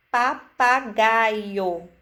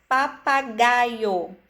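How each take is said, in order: First: Papagaio stretched very slowly; very slow demo. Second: Papagaio said slowly, every syllable marked; slow syllable demo. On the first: Teacher stressing the clear pá for children, very slowly. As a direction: drag out Papagaio syllable by syllable. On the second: Teacher to children, sounding out syllables. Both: Shown as a demonstration. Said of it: "enfatizando cada sílaba".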